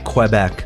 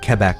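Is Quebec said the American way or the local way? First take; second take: American; local. First: It is said the way Americans usually say it. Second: It is said the way local people say it. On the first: The speaker calls it wrong. "Americans say Quebec" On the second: The speaker calls it right. "but it's actually Quebec"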